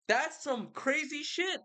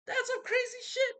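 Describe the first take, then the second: First: Excited. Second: "That's some crazy shit" squeaked much higher; squealing disbelief. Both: Real, not acted. Reacting to the river god.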